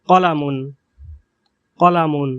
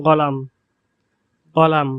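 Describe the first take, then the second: First: কলামুন with a throaty qaf and full case ending; classical Arabic. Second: গলাম with a hard g and no case ending; dialect Arabic. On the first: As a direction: say কলামুন carefully in formal Arabic. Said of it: "বিশুদ্ধ আরবি ভাষায় কলামুন". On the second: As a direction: say গলাম the regional way, q as g. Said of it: "কফকে গর মতো উচ্চারণ করা হয়েছে". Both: Shown as a demonstration.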